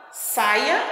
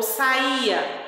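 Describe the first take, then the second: First: "saia" com força em SAI; tônica no começo. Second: "saía" com hiato, sa-Í-a; tônica no I. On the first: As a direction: diga "saia" devagar, SAI-a. ("saia" com ditongo tônico e final fraco) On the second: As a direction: diga "saía" devagar, com força no I. ("saía" em três sílabas, I marcado) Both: Shown as a demonstration. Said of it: "Observa bem o acento".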